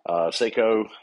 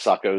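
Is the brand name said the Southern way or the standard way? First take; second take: Southern; standard. First: The name is said in the local Southern way. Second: The name is said in the standard way. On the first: "I live in the South and we call them Seikos" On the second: "Sako is the correct pronunciation"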